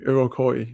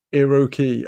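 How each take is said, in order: First: Iroquois ending in "koy"; corrected pronunciation. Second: Iroquois ending in "kee"; trying a pronunciation. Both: Shown as a demonstration. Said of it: "my pronunciations are terrible".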